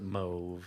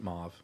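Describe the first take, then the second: First: The vowel sounds like 'oh', British style. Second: The vowel sounds like 'aw', American style. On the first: This is how the British say it. The speaker calls it wrong. "the British pronounce it mauve" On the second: This is how Americans say it. The speaker calls it right. "Thank you so much for pronou- pronouncing it mauve"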